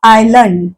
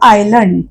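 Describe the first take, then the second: Both takes have the same delivery.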